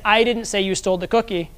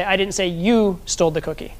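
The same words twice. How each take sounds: First: "I" punched at the start of the sentence; emphasis on the opening word "I"; stress on I. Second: "you" singled out with clear emphasis; emphasis on the word "you"; stress on YOU. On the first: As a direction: lean on "I", as if someone else said it. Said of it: "Slight different emphasis on slightly different words". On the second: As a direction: lean on "you", pointing at the person accused. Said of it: "that's different than if I say". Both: Shown as a demonstration.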